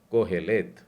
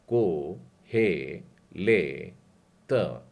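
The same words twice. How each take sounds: First: कोहेलेत joined into one word, louder, rising at the end; whole word. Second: को हे ले त split into separate slow syllables. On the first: Teacher joins the syllables into a word. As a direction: put कोहेलेत together in one go. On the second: Teacher sounds out the Hebrew name, slowly. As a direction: break को हे ले त apart, slow and firm. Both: Shown as a demonstration.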